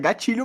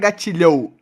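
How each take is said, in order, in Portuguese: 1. A vogal final é um "o" curto e simples. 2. A vogal final desliza para um som de "ou". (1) "é gatilho mesmo" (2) "que não é gatilhou"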